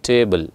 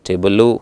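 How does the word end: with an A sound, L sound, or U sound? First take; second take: L sound; U sound. First: The word ends on a bare L sound. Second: The word ends with an added U vowel. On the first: The speaker calls it right. "ಲ್ not ಲಾ ಆರ್ ಲು" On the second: The speaker calls it wrong. "ಲೂ ಅಲ್ಲ"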